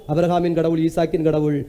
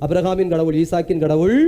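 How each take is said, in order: Both takes have the same delivery.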